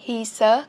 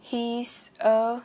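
First: "He's a" joined into one word, louder; linked sounds. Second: Said in the usual way. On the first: Shown as a demonstration. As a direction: push the S of "He's" straight onto "a". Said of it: "nối âm luôn cũng được". ("He's a" nối âm liền, to hơn) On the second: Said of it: "các bạn nối âm luôn cũng được".

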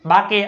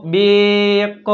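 First: બાકે with long 'aa' and a voiced final 'e'; mock misreading. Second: બેક with a long 'ay' and separate final K; sounded out. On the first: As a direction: misread bake in two syllables as બાકે. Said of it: "આવું વાંચી". (બાકે એવું ખોટું વાંચન) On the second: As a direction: stretch બેક slowly, sound by sound. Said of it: "બી એટલે બ". (બેક લંબાવીને, સાચા ઉચ્ચાર સાથે) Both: Shown as a demonstration.

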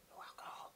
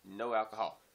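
First: "No alcohol" whispered under the breath; whispered aside. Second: Said in the usual way. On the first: Real, not acted. Repeats the warning, then whispers it.

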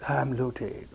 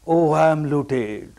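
First: Imitated lament. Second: Imitated wail. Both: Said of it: "Keeps on crying".

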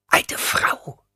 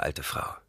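First: Offended hissing repeat; hissed echo. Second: Said in the usual way. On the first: A narrator's reading. Old woman hissing back at being called old, offended. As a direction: hiss the words back at him. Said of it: "zischte sie".

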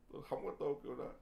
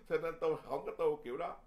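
First: Said in the usual way. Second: Quick words through a laugh; chuckling as he says "Cho nên tôi không có tu kiểu đó". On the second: Real, not acted. Monk laughs telling monks he won't practise that way, laughing.

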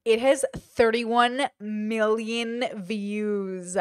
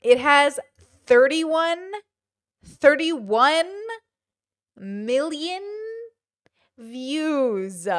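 First: Slow, drawn-out disbelief; slowly taking in a huge figure; stunned. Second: Loud, word-by-word amazement; stunned, halting repeat, pausing between words; emphatic disbelief. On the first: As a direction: stretch out every word in amazement. Stunned reading of view count. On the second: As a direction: hit THIRTY-ONE loud, then space out each word. Repeats view count in amazement. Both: Real, not acted.

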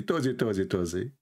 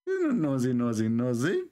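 First: "Tozy" with a t in place of the n, teasing singsong; childish mock lisp on "Tozy"; mock mispronunciation. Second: Chanted, playground taunt with a clear n on "Nosy"; teasing chant. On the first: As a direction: twist "nosy" into "Tozy" to tease. Teasing play on "nosy. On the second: Pretend.

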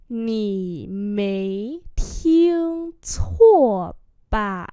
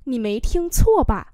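First: Very slow, each syllable stretched; slow model reading. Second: Said in the usual way. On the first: Shown as a demonstration. Teacher repeating a question for learners, very slowly.

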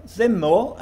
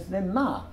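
First: "zimmo" ending in an o sound; zimmo with final o. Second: "zimma" ending in an a sound, like "another"; zimma with final a. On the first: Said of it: "Jordan still spoke zimmo as zimmo". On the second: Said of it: "pronounced it as zimma, to rhyme with another". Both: Shown as a demonstration.

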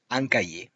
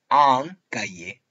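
First: Said in the usual way. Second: Un cahier slowed, nasal French un. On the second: Shown as a demonstration. Teacher repeating un cahier for pupils, slow nasal un. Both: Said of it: "Pronunciamos un".

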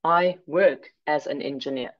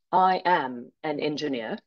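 First: "work" set apart and weighted; stress on WORK. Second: "am" set apart and weighted; stress on AM. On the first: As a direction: lean on "work", then finish evenly. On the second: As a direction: lean on "am", then a small gap. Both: Shown as a demonstration. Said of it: "Notice these subtle differences".

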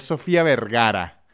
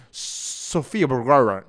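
First: "Sofía Vergara" with clear tapped Spanish Rs; Spanish pronunciation. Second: "Sofía Vergara" with swallowed English Rs; mock American pronunciation. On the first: Fan correcting the name, proud Spanish pronunciation. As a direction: say "Vergara" fully in Spanish, open vowels. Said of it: "no, ella es Sofía Vergara". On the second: Fan showing what she is not called, mock American pronunciation. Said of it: "Ella no es Sofía Vergara". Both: Shown as a demonstration.

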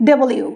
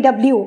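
First: "ডব্লিউ" opened out as double-you; correct W. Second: "ডাব্লিউ" run together in two beats; wrong W. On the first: Teacher models correct W, "ডব্লিউ" as double-you. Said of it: "pronunciation হচ্ছে". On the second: Teacher shows common mistake, squashed "ডাব্লিউ". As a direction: squash "ডাব্লিউ" into dab-lyu. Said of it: "সবাই ভুল pronounce করি". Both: Shown as a demonstration.

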